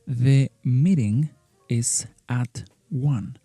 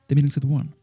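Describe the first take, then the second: First: Meeting and is are said as separate words. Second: Meeting and is merge into a contraction.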